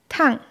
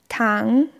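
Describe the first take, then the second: First: The pitch drops sharply from high. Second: The pitch rises from middle to high. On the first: It means hot. "Beim vierten Ton fällt die Stimme abrupt von einem hohen Niveau ab" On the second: It means sugar. "Ähnlich wie am Ende deutscher Fragesätze"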